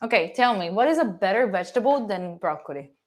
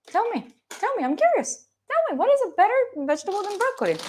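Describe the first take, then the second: First: Said in the usual way. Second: Much higher, faster, teasing push; playful high-pitched challenge to chat; insistent mock demand. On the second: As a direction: needle them for an answer, pitched way up. Repeats demand, pushing chat.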